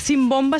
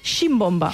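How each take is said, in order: First: The word begins with an s sound. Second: The word begins with a sh sound. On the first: This is the general form of the word. "no es pronuncia com a simbomba" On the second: This is how it is said in the Balearic Islands. "a les Balears i algunes altres zones ... en diuen ximbomba"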